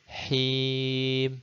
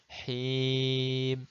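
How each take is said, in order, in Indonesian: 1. Vokalnya adalah i yang penuh dan jelas. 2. Vokalnya adalah i yang penuh dan jelas.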